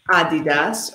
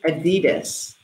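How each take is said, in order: First: It is said in a non-American pronunciation. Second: It is said in the American pronunciation. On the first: "So we can say Jess loves Adidas" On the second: "in the United States, we pronounce it Adidas"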